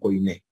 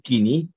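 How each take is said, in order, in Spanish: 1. La primera vocal se pronuncia como oy. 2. La primera vocal se pronuncia como ee. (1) "era que Coiné" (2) "les agrada más decir Kini"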